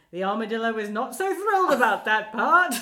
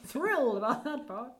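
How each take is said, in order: First: Loud muffled armadillo voice; muffled inside armadillo shell. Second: Light imitation of the armadillo voice; muffled inside armadillo shell. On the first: Retold or imitated. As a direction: boom it out from inside the costume. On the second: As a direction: echo the line as the armadillo. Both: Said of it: "he's doing his, his armadillo voice".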